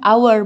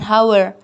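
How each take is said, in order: First: The word begins with a vowel, no h sound. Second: The word begins with an audible h sound. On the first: The speaker calls it right. "walaupun hour diawali dengan huruf H atau akan tetapi dibacakan hour" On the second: The speaker calls it wrong. "bukan hour"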